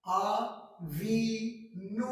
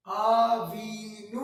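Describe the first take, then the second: First: "आवीनू" drawn out very slowly, rising at the end; slow demo word. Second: "आवीनू" stretched very slowly and said louder, rising; slow, louder demo. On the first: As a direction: stretch out "आवीनू" syllable by syllable. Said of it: "और आवीनू का मतलब our father". ("आवीनू" को बहुत धीरे खींचकर, अंत में ऊपर उठाते हुए) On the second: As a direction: model "आवीनू" for the students again. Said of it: "ऊ". ("आवीनू" ज़ोर से और बहुत धीरे, ऊपर उठाते हुए) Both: Shown as a demonstration.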